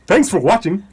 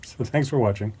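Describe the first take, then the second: First: It is said with exaggerated feeling. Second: It is said flatly, without much feeling.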